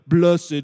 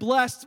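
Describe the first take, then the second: First: The word is said in a solemn, churchy way. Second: The word is said in a plain, everyday way.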